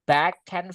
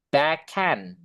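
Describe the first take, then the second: First: The words are said as separate words. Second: The consonant links into the next vowel smoothly.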